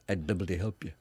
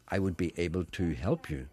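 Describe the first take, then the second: First: 'I would' is run together as 'I'd'. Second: 'I would' is said as two full words.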